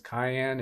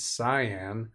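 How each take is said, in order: First: The word is said like the pepper name. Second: The word is said as the color name. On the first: The speaker calls it wrong. "some people call that pronounce that as cayenne" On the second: The speaker calls it right. "it's cyan"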